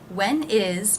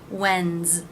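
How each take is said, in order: First: It is said as two separate words. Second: It is one syllable ending in z.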